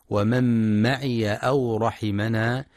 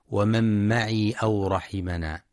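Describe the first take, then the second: First: ومن معي أو رحمنا with معي as maʕiya; fatha on ya. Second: ومن معي أو رحمنا with معي as maʕī, no a on the ya; wrong silent ya. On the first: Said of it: "لفتح الياء". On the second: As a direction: demonstrate the error: clip معي to a long ī. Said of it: "فلا يقرأ بسكونها". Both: Shown as a demonstration.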